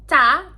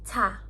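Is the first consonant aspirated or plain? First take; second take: plain; aspirated. First: The consonant is plain, without a puff of air. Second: The consonant has a puff of air after it. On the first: The speaker calls it wrong. "ini bukan ca" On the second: The speaker calls it right. "Ada udaranya ya yang keluar"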